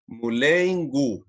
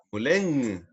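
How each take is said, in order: First: "mulengu" with separate G and full final U; wrong hard G. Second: "muleng" closing in one nasal ng sound, no hard G; correct nasal NG. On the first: Teacher showing the mistake, "mulengu" with a hard "gu". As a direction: stretch "mulengu" with a clearly sounded "gu". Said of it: "no es". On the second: Teacher correcting for students, "muleng" ending in nasal NG. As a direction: let "muleng" melt into a nasal hum. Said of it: "No, es muleng". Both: Shown as a demonstration.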